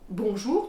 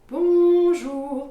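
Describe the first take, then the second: First: The word is said quickly and plainly. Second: The word is said slowly with a stretched rhythm. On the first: "tout simplement" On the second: "prendre ton temps, tu peux mettre une rythmique complètement différente"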